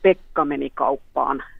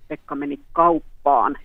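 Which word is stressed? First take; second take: Pekka; kauppaan. First: The stress falls on the word Pekka. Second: The stress falls on the word kauppaan. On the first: It answers who went to the shop. "kuka meni kauppaan" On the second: It answers where he went. "minne Pekka meni"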